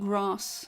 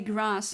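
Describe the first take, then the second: First: It is said with a British accent. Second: It is said with an American accent. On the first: "not grass, like a British person would say" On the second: "I say grass"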